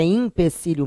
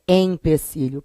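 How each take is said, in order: First: "empecilho" as "impecilho"; começando com I. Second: "empecilho" with a clear EM; começando com E. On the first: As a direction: open "empecilho" on IM. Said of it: "será que é empecilho mesmo?". ("empecilho" com I inicial: "impecilho") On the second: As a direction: sound the E opening "empecilho". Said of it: "Ou será que é empecilho?". ("empecilho" com E nasal bem marcado) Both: Shown as a demonstration.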